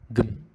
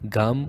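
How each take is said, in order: First: No vowel comes between G and M. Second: A clear A vowel follows the G. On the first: The speaker calls it right. "consonants with no vowels connecting them" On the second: The speaker calls it wrong.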